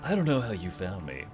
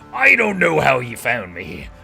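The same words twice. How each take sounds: First: It is said in his normal voice. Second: It is said in a put-on pirate voice.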